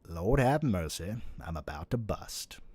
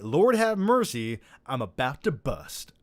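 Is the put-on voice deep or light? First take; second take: deep; light. First: A deep, slow put-on impression voice is used. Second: A lighter put-on impression voice is used. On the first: The speaker calls it right. "in my Morgan Freeman voice" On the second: The speaker calls it wrong. "I was saying it in my Uncle Jesse voice from Full House"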